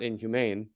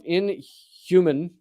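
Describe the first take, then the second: First: "inhumane" with a long A in the last syllable; pronounced inhumane. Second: "inhuman" with an unstressed last syllable, as in human; pronounced inhuman. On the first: Host correcting the word, "inhumane" rhyming with main. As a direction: say "inhumane" ending to rhyme with "main". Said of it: "both inhuman and inhumane". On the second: Host reading UN statement, "inhuman" said like human. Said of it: "not inhumane". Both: Shown as a demonstration.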